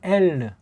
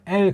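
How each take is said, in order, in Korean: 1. 마지막 ㄹ에는 'reu' 소리가 붙어요. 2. 마지막 ㄹ은 모음 없이 짧게 끊어요. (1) "그 르라고 하는 그 꼬다리를 붙는 발음을 해요" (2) "서양 아이들은 이 발음을 엘 그렇게 못하고"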